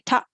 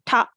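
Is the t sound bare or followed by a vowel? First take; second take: vowel; vowel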